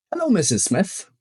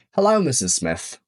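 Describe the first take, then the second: First: Example read. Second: Said in the usual way. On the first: Shown as a demonstration. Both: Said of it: "Spójrzmy na przykłady".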